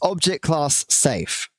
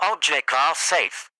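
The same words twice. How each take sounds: First: It is said in his normal voice. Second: It is said in a put-on Radio Demon voice.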